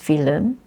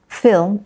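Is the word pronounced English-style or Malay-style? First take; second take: Malay-style; English-style. First: It is pronounced the way Malay speakers say it. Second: It is pronounced the original English way. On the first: This is the borrowed word in Malay. "it becomes film" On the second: This is the source word in English. "So from film"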